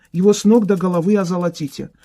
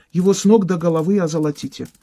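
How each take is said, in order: No difference in how they are said.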